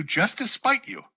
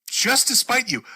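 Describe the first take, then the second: First: "spite" drawn out, rising, slow; slow, teasing rise on "spite"; spiteful. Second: "Just" hit high and firm, falling; spiteful emphasis. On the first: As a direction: stretch "just to spite you" slowly up at the end. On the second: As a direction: punch "Just to spite you" with a falling finish. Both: Real, not acted.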